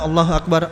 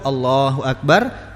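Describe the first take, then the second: First: It is said very fast and hurried. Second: It is said slowly and calmly.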